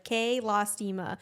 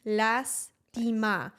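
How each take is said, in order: First: "Que lastima" with drawn-out vowels, American style; long-vowel American Spanish. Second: "Lastima" with short, cut-off vowels; clipped vowels. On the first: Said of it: "the one mistake that Americans tend to make". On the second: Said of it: "every single vowel you cut". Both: Shown as a demonstration.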